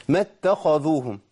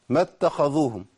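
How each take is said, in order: No difference in how they are said.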